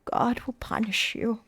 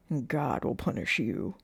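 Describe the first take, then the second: First: Slow, hushed pronouncement; half-whispered, drawn-out warning; whispered condemnation. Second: Lower, ominous sheriff; low, measured warning; sheriff's threat. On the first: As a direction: whisper it slowly, like a curse. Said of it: "pointed her quivering finger in their direction and whispered". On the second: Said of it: "she heard the sheriff say". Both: A narrator's reading.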